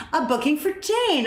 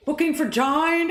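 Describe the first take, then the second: First: Said in the usual way. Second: High Brummie voice, "Jane" said like "Jine"; mock Brummie accent. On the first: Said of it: "and I'm like". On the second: Caller repeating the booking in a mock Brummie accent. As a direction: imitate a Brummie caller, pitched up. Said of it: "oh, the Brummie accent?".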